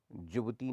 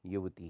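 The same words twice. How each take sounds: First: युवती said as jubti. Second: Said in the usual way. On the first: Shown as a demonstration. Teacher shows the error, युवती with j. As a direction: start युवती on a j. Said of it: "नहीं होती". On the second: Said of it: "होती है".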